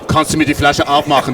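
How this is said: The request sounds forceful and domineering. The speaker is commanding the listener. "too dominant"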